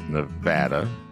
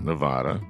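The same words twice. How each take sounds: First: It uses the pronunciation locals accept. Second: It uses the pronunciation locals dislike. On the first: The speaker calls it right. "it's Nevada" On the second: The speaker calls it wrong. "not Nevada. ... They hate it when you say Nevada there"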